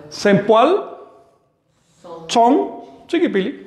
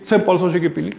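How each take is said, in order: First: "Sempoal son chiquipili" slowed, stress on "son"; slow model. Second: Said in the usual way. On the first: Shown as a demonstration. Teacher answers his own question slowly. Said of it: "Cómo pronunciarías eso". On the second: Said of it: "Es muy fácil".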